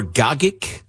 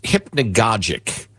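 First: "gogic" with both g's hard; pronunciation with hard g. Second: "hypnagogic" with the last g as a j; pronunciation with soft g. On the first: Host offers the alternative pronunciation, hard-g "gogic". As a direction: say "gogic" as GOG-ik. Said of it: "hypnagogic or gogic". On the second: Host offers co-host one pronunciation, soft-g "hypnagogic". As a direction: say "hypnagogic", ending in -GOJ-ik. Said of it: "I think it's pronounced". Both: Shown as a demonstration.

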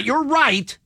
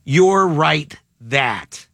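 First: Said in the usual way. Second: Slow "You're right that", with that kept as the point; stress on THAT. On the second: Shown as a demonstration. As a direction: say "You're right that" slowly, leaning to the end. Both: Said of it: "Not "you're right".

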